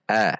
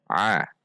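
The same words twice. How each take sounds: First: A as an open vowel without throat squeeze; wrong plain A. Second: A squeezed from mid-throat, Arabic ain. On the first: Teacher shows mistake, a without the ain. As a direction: say a like a simple glottal-onset vowel. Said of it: "Tidak boleh dibaca a". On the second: Teacher models correct ain, a from mid-throat. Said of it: "di tengah tenggorokan". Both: Shown as a demonstration.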